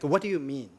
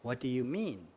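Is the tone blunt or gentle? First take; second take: blunt; gentle. First: It is said in a plain, blunt tone. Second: It is said in a nice, gentle tone.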